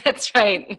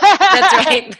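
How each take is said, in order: First: Said in the usual way. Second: High, loud laugh through the words. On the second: Real, not acted. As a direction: laugh it out in agreement. Laughing agreement.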